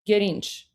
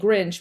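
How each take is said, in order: First: Persian pronunciation, a vowel inserted between consonants. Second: Plain English pronunciation with the gr cluster.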